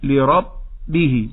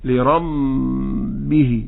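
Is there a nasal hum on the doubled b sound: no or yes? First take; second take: no; yes. First: The doubled b has no nasal hum. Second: The doubled b carries a nasal hum. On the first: The speaker calls it right. "أقول لرب ولا أسمع شيئا ثم أقول به" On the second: The speaker calls it wrong. "لا نقرأ هكذا لربه كأنه الميم، هذا خطأ"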